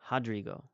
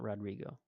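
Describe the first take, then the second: First: The name begins with an H-like sound. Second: The name begins with an English R sound. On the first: The speaker calls it right. "that's the pronunciation I worked on" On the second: The speaker calls it wrong. "not Rodrigo"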